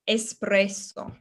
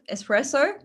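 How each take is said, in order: First: The s sound is long and strong. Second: The s sound is short and light. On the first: The speaker calls it right. "double strength to those double consonants" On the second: The speaker calls it wrong. "not espresso"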